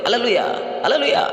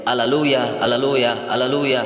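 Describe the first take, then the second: First: High-pitched imitation of cheering believers; imitated celebratory whoop, pitched far up; mock jubilant shouting. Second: Measured, evenly spaced chant-like repeats; lightly intoned angelic refrain, barely sung; imitating angels' praise. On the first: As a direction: cry it out high, without much volume. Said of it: "mereka berteriak". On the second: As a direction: intone each one with a drawn-out ending. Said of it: "dia mendengar malaikat menyanyi".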